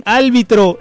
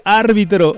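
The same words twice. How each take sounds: First: Árbitro said with L, "álbitro"; árbitro misspoken as "ál-bitro"; mispronunciation. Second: Árbitro with R before the B; árbitro with a clear first R; correct pronunciation. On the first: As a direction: swap the R for an L in árbitro. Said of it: "Cuando dicen árbitro en vez de árbitro". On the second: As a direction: say árbitro as "ÁR-bi-tro". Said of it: "en vez de árbitro". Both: Shown as a demonstration.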